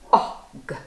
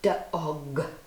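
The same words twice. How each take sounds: First: The middle vowel is drawn out and emphasized. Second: The final sound is drawn out and emphasized. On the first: "And the middle letter" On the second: "just emphasizing the letter that you're trying to get the child to hear"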